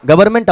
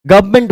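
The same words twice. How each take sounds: First: गवर्नमेंट with the r sounded, the way not to say it; wrong pronunciation. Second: गवर्नमेंट said as guv-ment, the r dropped; correct pronunciation. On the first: Teacher shows students the wrong way, गवर्नमेंट. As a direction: say गवर्नमेंट spelling out the r as the mistake. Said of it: "गवर्नमेंट आपको नहीं बोलना है". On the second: Teacher shows students the right way, गवर्नमेंट. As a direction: say गवर्नमेंट without the r. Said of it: "गवर्नमेंट बोलना है आपको". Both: Shown as a demonstration.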